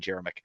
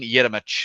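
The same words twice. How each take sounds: First: The surname is said in its common pronunciation. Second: The surname is said in its original pronunciation. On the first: This is how most people say the name. "everyone calls him" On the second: This is how the name is properly said. "is the correct way to say his last name"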